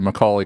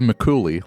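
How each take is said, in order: First: The second syllable sounds like 'call'. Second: The second syllable sounds like 'cool'. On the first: "because of Macaulay Culkin" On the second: "like Cooley"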